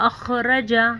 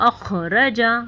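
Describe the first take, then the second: Both takes have the same delivery.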